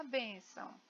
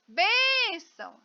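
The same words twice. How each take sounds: First: Said in the usual way. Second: "bênção" called out with long, high, loud "bên"; stress on BÊN. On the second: Shown as a demonstration. Teacher calls out to find the stronger syllable, "bênção" with held "bên". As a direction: stretch the "bên" of "bênção" like a call, then drop. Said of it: "eu demorei mais na bem".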